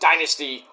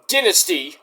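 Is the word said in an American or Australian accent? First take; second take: American; Australian. First: It is said in a plain American accent. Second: It is said in an Australian accent.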